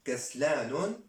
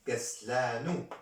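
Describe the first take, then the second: First: كسلان with an added final -un, "kaslanun"; wrong tanwin ending. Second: كسلان ending in a bare -u, "kaslanu"; ending without tanwin. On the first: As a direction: end كسلان on a nasal n sound after the u. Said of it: "C'est faux". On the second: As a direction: drop the tanwin, end كسلان on open u. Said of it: "C'est vrai". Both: Shown as a demonstration.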